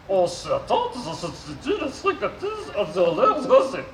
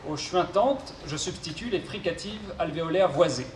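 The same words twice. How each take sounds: First: Robot voice with garbled consonants. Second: Said in the usual way. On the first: Acted. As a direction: mangle the consonants like a glitchy robot. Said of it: "souffre d'une pathologie vocale". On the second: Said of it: "je serai son interprète".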